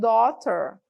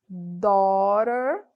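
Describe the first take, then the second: First: The middle t is said as a clear t. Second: The middle t sounds like a quick r. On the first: "podem falar com T também" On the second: "Esse T ali no final tem som de R"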